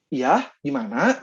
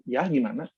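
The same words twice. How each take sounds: First: Slow, lilting Sundanese intonation on Ya, gimana?; relaxed Sundanese-accented reply. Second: Said in the usual way. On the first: Shown as a demonstration. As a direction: say Ya, gimana? with a drawn-out Sundanese lilt. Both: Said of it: "dengan dialek-dialek dan intonasi Sundanya".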